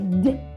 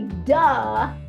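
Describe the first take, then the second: First: The d is short with no vowel after. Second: The d has an added uh vowel after it. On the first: The speaker calls it right. "we're going to say D" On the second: The speaker calls it wrong. "we're not going to say duh"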